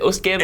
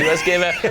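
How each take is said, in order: First: US is said as the single word 'us'. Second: US is said as two separate letters.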